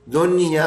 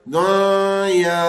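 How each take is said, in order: First: The n sound is plain, without held nasalization. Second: The n sound is held with nasalization. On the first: The speaker calls it right. "इसमें भी गुन्ना नहीं है" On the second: The speaker calls it wrong. "कोई इसके अंदर गुन्ना करते हुए पढ़े"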